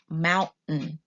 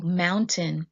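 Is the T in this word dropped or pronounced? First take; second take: dropped; pronounced. First: The T is dropped, stopping before a hard N. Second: The T is fully pronounced before the N.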